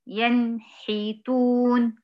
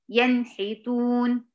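First: "ينحتون" with a gap after the nun; slow faulty recitation of "ينحتون"; wrong pause demo. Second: "ينحتون" said straight through with no gap; correct joined reading. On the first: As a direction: split "ينحتون" wrongly, very slowly. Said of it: "ليه بعمل الفاصل ده؟". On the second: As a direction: glide from the nun into the ha in "ينحتون". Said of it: "لا، على طول". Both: Shown as a demonstration.

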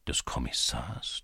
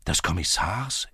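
First: Low, soft wondering question; thinking to himself. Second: Questioning echo with rising end; echoing in surprise. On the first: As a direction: ask it inwardly, hushed and low. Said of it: "dachte Levko". (leise und tief in Gedanken fragen) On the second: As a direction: repeat it as a puzzled question. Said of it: "echoten die Polizisten". (erstaunt nachfragendes Echo) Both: A narrator's reading.

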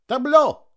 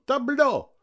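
First: Sharp high shout to the troupe. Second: Repeated high call, falling; shout. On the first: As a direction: call it out across the stage. (громкий выкрик) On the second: (выкрик со спадом) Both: A narrator's reading. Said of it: "крикнул он".

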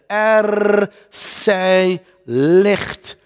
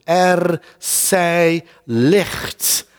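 First: Each word drawn out, very slow; slow proclamation. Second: Drawn-out, solemn, very slow; slow proclamation. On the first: God's creative word, proclaimed. (God zegt het langzaam en plechtig) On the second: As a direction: let each word hang, slowly. Repeated proclamation. (langzaam, plechtig herhaald) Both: Acted.

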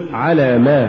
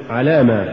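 First: على, then a stressed ما; separate words. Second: على ما fused as one word; weak ما tacked onto على; words run together. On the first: Teacher models correct recitation, على apart from ما. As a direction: give ما its own weight after على. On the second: Teacher shows the mistake, على ما run together. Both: Shown as a demonstration. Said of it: "ولا تقل".

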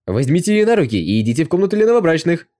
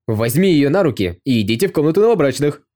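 First: Higher, louder chorus of joyful soldiers; rowdy joyful mob shout; crowd roaring cheerfully. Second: A guard's loud, merry call across the yard; rowdy soldier's shout; cheerful shout. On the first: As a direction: roar it like a whole crowd of soldiers. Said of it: "начали радостно кричать". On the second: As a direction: shout it out to egg the prince on. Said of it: "кто из телохранителей крикнул это". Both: A narrator's reading.

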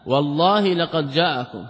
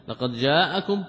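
First: Slow and emphatic, stress on والله with a falling close; emphatic oath. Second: Said in the usual way. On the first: Shown as a demonstration. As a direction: lean hard on والله, then لقد جاءكم. (توكيد بطيء مع نبر قوي على والله) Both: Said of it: "ها، كم مؤكد؟".

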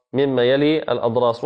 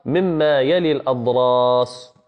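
First: Said in the usual way. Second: مما يلي الأضراس slowed, with يلي leaned on; careful slow stress on يلي in مما يلي الأضراس; slow stressed phrase. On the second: Shown as a demonstration. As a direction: spell out مما يلي الأضراس slowly, pressing يلي. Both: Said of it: "أي حافته اليمنى أو اليسرى".

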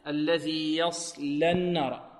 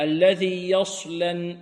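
First: Slow الذي يصلى النار, thick ص and thin لام; correct recitation. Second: Very slow الذي يصلى with lips rounded on ص; wrong rounded sad. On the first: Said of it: "نفخم الصاد بدون ضم الشفتين". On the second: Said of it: "يضم شفتيه في الصاد". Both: Shown as a demonstration.

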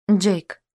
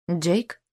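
First: "Джейк" as a falling statement; confirming. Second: "Джейк?" with a rising question tune. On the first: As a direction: confirm "Джейк", pitch dropping at the end. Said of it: "кивнул Винсент". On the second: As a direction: ask "Джейк?", pitch lifting at the end. Questioning name, then confirmed. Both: A narrator's reading.

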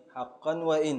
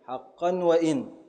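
First: Said in the usual way. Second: Slow scansion of حقا وإن, leaning on وإن; stress on وإن. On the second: Shown as a demonstration. Teacher scanning the verse for students, slow and deliberate. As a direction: sound out حقا وإن slowly syllable by syllable, hitting وإن. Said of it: "مستفعل".

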